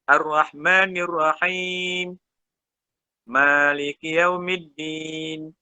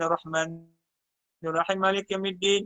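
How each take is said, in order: First: There is a short pause between the verses. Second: The verses run together in one breath. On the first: Each verse is recited separately, following the Prophet's practice. "Nabi baca satu-satu, dia berhenti sekejap, tu dia sambung" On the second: The verses are recited joined together in one go. "dia tarik satu nafas ... dia sambung"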